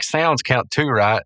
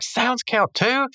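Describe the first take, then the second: First: Casual checking question; lightly voiced Skips. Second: High, drawn-out incredulous question; Rigby's mock dismay. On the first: Skips checking the jinx rules with Mordecai, casual. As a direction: ask it evenly, barely acted. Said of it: "Skips is like". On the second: Rigby learning sounds count, high incredulous mock whine. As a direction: stretch it out, rising in disbelief. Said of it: "Rigby's like".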